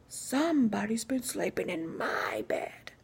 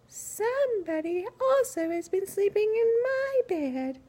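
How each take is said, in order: First: It is said in a big, deep, growly voice. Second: It is said in a soft, gentle voice.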